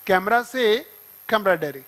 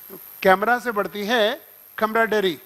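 First: Slower, stressing से; slow drilled repeat. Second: Slow, spelled-out memory line; slow mnemonic. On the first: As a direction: hammer the short mnemonic slowly. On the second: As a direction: drill the mnemonic slowly. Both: Shown as a demonstration. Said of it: "तो लिख दो".

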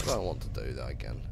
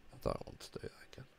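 First: Low deep voice. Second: Quick breathy whisper, fast. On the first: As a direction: drop the voice way down, deep. Repeats line in low voice. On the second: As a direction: hiss it out fast under the breath. Repeats line whispered. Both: Pretend.

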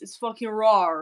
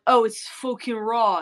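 First: "raw" ending in a hard R; mock Aussie R on the end of "raw"; R tacked on. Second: Said in the usual way. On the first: Shown as a demonstration. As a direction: say "raw" as "rawr". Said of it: "you tack on an R". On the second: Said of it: "So instead of like".

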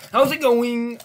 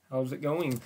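First: High, loud cheery greeting; hyped-up greeting. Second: Said in the usual way. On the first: Pretend. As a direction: burst out with a big hyped hello.

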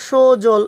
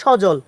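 First: সজল with a closed o, "sho-jol"; wrong pronunciation. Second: সজল with an open "aw", "shaw-jol"; correct pronunciation. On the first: Teacher shows what not to say, সজল mispronounced "sho-jol". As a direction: round the first vowel of সজল to o. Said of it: "এরকম হবে না". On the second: Teacher answers the question, সজল pronounced "shaw-jol". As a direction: open up the first vowel of সজল. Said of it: "কী হবে". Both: Shown as a demonstration.

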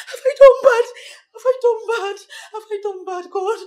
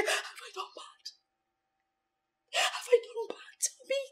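First: Loud tearful plea; tearful shout. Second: Hushed, tearful whisper; whispered sobbing. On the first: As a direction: cry it out loud. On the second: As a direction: whisper it through tears. Whispered crying. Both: Acted.

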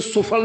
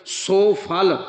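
First: ਸੁਫਲ run together as one word; ਸੁਫਲ as a single quick word, short first vowel; wrong joined reading. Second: ਸੋ ਫਲ as two separate words; ਸੋ ਫਲ split clearly, long first vowel; correct split reading. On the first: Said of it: "ਇਹਨੂੰ ਸੁਫਲ ਨਹੀਂ ਪੜ੍ਹਨਾ ਕਦੇ ਵੀ". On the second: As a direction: hold a long o in ਸੋ, then ਫਲ. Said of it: "ਇਹਨੂੰ ਸੁਫਲ ਨਹੀਂ ਪੜ੍ਹਨਾ". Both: Shown as a demonstration.

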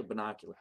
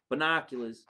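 First: "Binocular." said quietly, with no s on the end; no final s. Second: "Binoculars." said at normal volume, the s clearly sounded; with final s. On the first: Unsure host tests "Binocular." softly without s. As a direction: try the word "Binocular." softly, dropping the s. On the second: Host settles on "Binoculars." with a clear s. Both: Shown as a demonstration. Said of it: "Is it binocular?".

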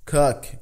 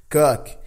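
First: Cook said with short u vowel; English cook. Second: Cook said as kak, open vowel. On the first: Teacher contrasting two cook vowels. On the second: Teacher showing the wrong cook vowel. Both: Shown as a demonstration. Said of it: "olha a diferença de cook pra cook".

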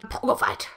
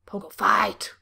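First: Said in the usual way. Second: A breathy whisper of the phrase Pogo fight; hushed whisper. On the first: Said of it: "repeated in whisper". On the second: Shown as a demonstration. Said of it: "repeated after plain take".

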